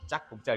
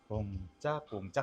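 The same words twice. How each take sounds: First: The beats are clipped and cut off. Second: The beats flow smoothly into each other. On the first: The music is chopped up instead of ridden. The speaker calls it wrong. "이렇게 끊고 가는 게 아니라" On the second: The rhythm is ridden and kept alive. The speaker calls it right. "하면서 그 리듬감을 이렇게 살려서 타고 가야"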